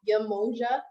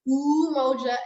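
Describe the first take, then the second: First: The word begins with a 'ya' sound. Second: The word begins with an 'oo' sound. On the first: The speaker calls it wrong. "and not Yamoja" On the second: The speaker calls it right. "Umoja is pronounced Umoja"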